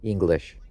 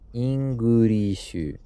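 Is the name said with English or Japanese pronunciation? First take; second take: English; Japanese. First: It is said with English pronunciation. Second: It is said with Japanese pronunciation. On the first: "my family name is English" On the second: "if you translate my name into Japanese, it's Ingurishu"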